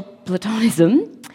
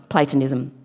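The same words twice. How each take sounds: First: Platonism stressed on the second syllable, pluh-TON-ism; mispronounced platonism. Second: Platonism stressed on the first syllable, PLAY-tuh-nism; corrected Platonism. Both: Real, not acted. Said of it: "I say the word incorrectly".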